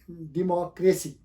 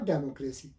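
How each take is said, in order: First: डेमोक्रेसी slowly, as "di-MOCK-ruh-see"; correct pronunciation. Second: डेमोक्रेसी as "DAY-mo-kray-see"; wrong pronunciation. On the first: Teacher gives the actual word, correct slow डेमोक्रेसी as "di-MAH-kre-si". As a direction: say डेमोक्रेसी with short "di", open "MAH". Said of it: "ये actually". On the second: Teacher rejects the spelled-out reading, wrong डेमोक्रेसी as "DE-mo-kre-si". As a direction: say डेमोक्रेसी with "de-mo" at the start. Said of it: "not डेमोक्रेसी". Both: Shown as a demonstration.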